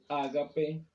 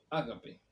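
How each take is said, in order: First: The stress is on the second syllable. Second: The stress is on the first syllable. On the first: The love of God. "con el acento en la segunda A" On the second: A shared meal gathering. "con acento en la primera A"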